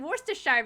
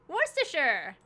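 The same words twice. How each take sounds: First: The ending sounds like 'shire'. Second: The ending sounds like 'sure'. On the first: The speaker calls it wrong. "I see Shire at the end of it instead of sure" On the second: The speaker calls it right. "I was close"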